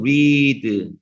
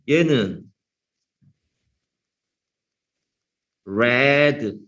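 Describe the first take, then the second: First: The vowel is drawn out long. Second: The vowel is short. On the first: It is the present form of the verb. "이게 옆으로 쭉쳐 있는 거는 길게 발음하라는 뜻이에요" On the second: It is the past form of the verb.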